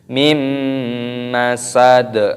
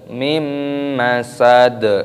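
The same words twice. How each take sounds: The two takes are said the same way.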